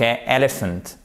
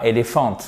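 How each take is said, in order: First: Elephant, stress on first syllable EL-ephant; English pronunciation, stress on first syllable. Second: Éléphant said the French way, even stress ending on -phant; wrong French pronunciation to avoid. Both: Shown as a demonstration. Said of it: "pas éléphant".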